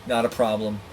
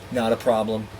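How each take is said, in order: Both takes have the same delivery.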